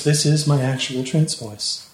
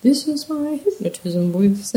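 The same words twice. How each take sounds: First: Slow, smooth hypnotist voice; slow right down and smooth it out; measured, soothing trance delivery. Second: Slow, put-on hypnotist voice; playful, stretched-out trance voice; mock hypnotism voice. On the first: Shown as a demonstration. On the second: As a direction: badly fake a hypnotist, drawing it out.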